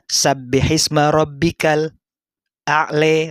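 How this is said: The phrase is recited with a brief stop. The speaker calls it right. "tapi harus yang sakta"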